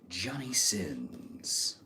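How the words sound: It is said like a Mortal Kombat announcer.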